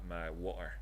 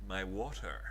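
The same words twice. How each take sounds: First: It is said in a Scottish accent. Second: It is said in a posh English accent. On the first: "that's called water here in Scotland" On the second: "I could speak like that if you prefer"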